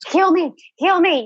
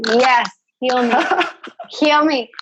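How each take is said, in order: First: It sounds grasping, needy and desperate. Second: It sounds open, calm and receptive.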